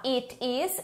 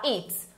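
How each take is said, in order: First: "it is" as two separate words; full form. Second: "it's" run into one syllable; contracted form. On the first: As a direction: keep the vowel in "is" of "it is". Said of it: "Eu posso tanto falar". ("it is" por extenso, duas palavras) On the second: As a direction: close "it's" quickly on the ts. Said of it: "ou eu posso falar". ("it's" abreviado, numa sílaba) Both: Shown as a demonstration.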